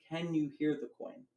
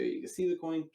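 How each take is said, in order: First: "Can you hear the coin" higher, weight on "hear"; emphasized question. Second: "you can see the coin" stated, higher on "see"; told, not asked. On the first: Magician running the routine for the spectator, question emphasized. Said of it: "And I really emphasize that". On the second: Magician running the routine for everyone, as a statement. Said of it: "I tell him". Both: Shown as a demonstration.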